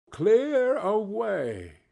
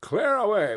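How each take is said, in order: First: Slow, stretched, relishing narration; drawn-out echo. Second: Higher, louder cheery command; jovial order. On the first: A narrator's reading. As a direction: savor the phrase slowly. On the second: Acted. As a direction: order the lads with glee. Fezziwig orders the room cleared.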